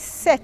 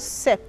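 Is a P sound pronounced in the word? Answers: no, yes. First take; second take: no; yes. First: The word is said without a P sound. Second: The word is said with a P sound. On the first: The speaker calls it right. "The P is silent. You say set" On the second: The speaker calls it wrong. "not set"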